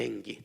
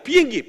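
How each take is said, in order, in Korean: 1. 다정하고 따뜻한 말투로 말하고 있어요. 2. 야단치는 듯한 거친 말투로 말하고 있어요. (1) "엄마가 가르치면 이 아이를 사랑하고 이 아이가 잘 되기를 바라는 마음에서" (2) "훈계하고 뭔가 불편해하고 불어다 놓고 혼내키려고"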